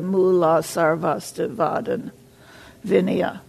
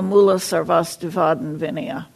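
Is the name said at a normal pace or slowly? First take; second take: slowly; normal. First: The name is said slowly and deliberately. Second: The name is said at a normal pace.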